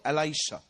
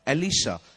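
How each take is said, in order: First: The second vowel sounds like 'eye'. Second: The second vowel sounds like 'ee'. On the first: This is the English form of the name. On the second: This is the Hindi form of the name.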